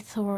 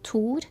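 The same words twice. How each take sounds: First: The name is said with an English pronunciation. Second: The name is said with a Norwegian pronunciation. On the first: "we don't say Thor and Odin" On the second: "in Norway, we say"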